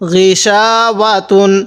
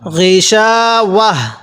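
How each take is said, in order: First: The word ends with a 'tun' sound. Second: The word ends with a soft 'h' sound. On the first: The reading continues into the next word. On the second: The reader stops on this word.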